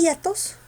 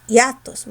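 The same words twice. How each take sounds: First: "hiatos" said as Í-a-tos, high slow stressed I; wrong stress on I. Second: "hiatos" said as i-Á-tos, force on the A; stress on A. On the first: Teacher testing whether to add an accent, wrongly stressed I in hiatos. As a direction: stretch the first I of "hiatos". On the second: Teacher correcting the wrong version, stressed A in hiatos. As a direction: lean on the A in "hiatos", slowly. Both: Shown as a demonstration. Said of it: "Mayor fuerza está en la A".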